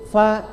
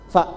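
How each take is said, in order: First: The vowel is a bit longer, two beats. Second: The vowel is short, held one beat. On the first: "karena ada dua, agak panjang sedikit" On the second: "Saya kasih harokat di atas"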